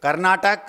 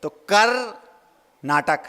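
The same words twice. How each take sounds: First: Said in the usual way. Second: "कर" then "नाटक" as two separate words with a pause between; "कर नाटक" split in two, a clear gap between "कर" and "नाटक"; split into parts. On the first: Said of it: "शब्द है एक". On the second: Shown as a demonstration. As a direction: break "कर नाटक" apart, pausing after "कर". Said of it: "अब उसको तोड़ेंगे".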